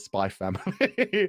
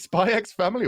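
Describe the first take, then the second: First: The letter X is left out entirely. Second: The letter X is spoken between the words.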